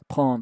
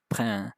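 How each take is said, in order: First: The vowel is said like a nasal o. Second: The vowel is said like e, as spelled. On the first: This is how it is actually said. "you pronounce the E as an O" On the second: This is what the spelling suggests. "you pronounce what should be like prend"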